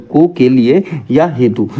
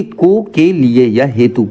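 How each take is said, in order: First: को के लिए या हेतु said slowly, को stressed, falling end; teacher spelling out को के लिए या हेतु slowly, को stressed. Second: Said in the usual way. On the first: Shown as a demonstration.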